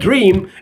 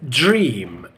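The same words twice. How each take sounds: First: It starts with a plain D sound. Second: It starts with a J-like sound. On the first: The speaker calls it wrong. "we can't say dream" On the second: The speaker calls it right. "It's dream"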